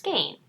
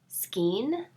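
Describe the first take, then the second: First: The vowel sounds like 'ay'. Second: The vowel sounds like 'ee'. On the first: The speaker calls it right. "it's pronounced skein" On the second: The speaker calls it wrong. "I used to pronounce skein as skeen"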